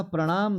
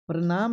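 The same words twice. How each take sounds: First: प्रणाम with a curled-back retroflex ṇ; प्रणाम with a flapped ṇ; correct pronunciation. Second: प्रणाम with a dental n, "pranaam"; plain tongue-tip n in प्रणाम; wrong pronunciation. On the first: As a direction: curl the tongue for the middle of प्रणाम. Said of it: "प्रणाम सही होता है". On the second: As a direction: raise प्रणाम as the mistaken form. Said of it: "प्रणाम नहीं होता है". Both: Shown as a demonstration.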